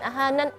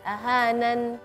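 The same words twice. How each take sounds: First: The n sound is cut short. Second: The n sound is held longer. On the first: The speaker calls it wrong. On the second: The speaker calls it right. "Kasih durasi untuk harf nun supaya lebih jelas"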